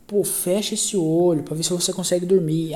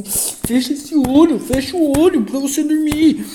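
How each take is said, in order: First: Said in the usual way. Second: Higher and louder, slow and insistent; irritated command. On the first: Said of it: "Eu falava assim". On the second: Retold or imitated. Husband, exasperated, ordering his wife in the hospital bed to close her eyes, high and loud. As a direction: snap it out, fed up with her not sleeping. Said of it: "ficava puto".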